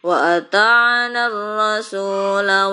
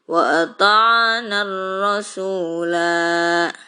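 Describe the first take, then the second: First: The final vowel of ar-rasula is short. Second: The final vowel of ar-rasula is long. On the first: The reading continues without stopping. "Tapi kalau dilanjut" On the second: The reading stops here. "Panjang ya, dua harokat"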